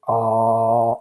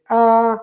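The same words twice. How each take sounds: First: Low, steady held "ah"; low pitch. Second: High, loud held "ah"; high pitch. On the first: Teacher showing students what low pitch is, low held note. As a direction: drop to a low monotone and hold it. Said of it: "this is a low pitch". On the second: Teacher showing a high frequency sound, high held note. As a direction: lift the note up high and sustain it. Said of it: "a high frequency sound". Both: Shown as a demonstration.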